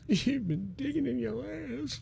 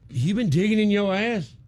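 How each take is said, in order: First: It is said in a sad tone. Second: It is said in a jealous tone.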